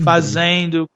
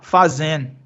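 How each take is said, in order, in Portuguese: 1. A terminação é pronunciada por inteiro, com 'do' claro. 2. A palavra termina em vogal nasal, sem 'do'. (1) "todos os seus amigos vão falar sempre" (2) "eu paro no som do N. Eu paro no, numa vogal nasal"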